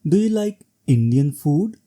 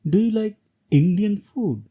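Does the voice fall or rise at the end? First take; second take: rise; fall. First: The pitch rises on the last word. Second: The pitch falls on the last word. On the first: It is a neutral, polite question. "rising tone on food will sound like question" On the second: The question is rhetorical. "falling tone would sound rhetorical"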